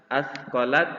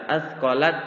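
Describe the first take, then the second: The two takes are said the same way.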